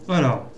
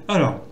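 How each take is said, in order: Both takes have the same delivery.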